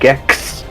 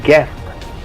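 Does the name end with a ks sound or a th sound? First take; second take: ks; th. First: The name ends with a ks sound. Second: The name ends with a th sound. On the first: The speaker calls it wrong. "not Gex" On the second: The speaker calls it right. "It's Geth"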